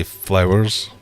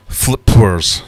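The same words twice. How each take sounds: First: Said in the usual way. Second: FLIPWERS said as written, flip-wers, loudly; misspelling read out. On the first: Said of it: "Which is meant to say". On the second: Shown as a demonstration. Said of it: "Which is meant to say flowers".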